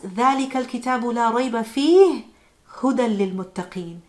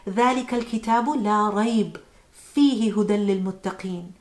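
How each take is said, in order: First: There is a pause right after 'fihi'. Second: There is a pause right after 'la rayb'. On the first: There is no doubt in the book, and it is guidance. "we pause after فِيهِ" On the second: There is no doubt about the book, and it contains guidance. "we pause after لا ريب"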